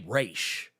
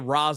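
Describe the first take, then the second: First: The name ends with a sh sound. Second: The name ends with an s sound. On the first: "I say Raish because of the Batman animated series" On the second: "I don't say Ra's al Ghul all the time"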